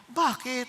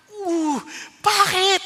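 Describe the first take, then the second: First: Said in the usual way. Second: Loud, high, drawn-out shocked "bakit"; startled cry. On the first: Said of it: "nagpipigil ako". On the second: Retold or imitated. Husband reacting to his wife's refusal, shocked and loud. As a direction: burst out in disbelief.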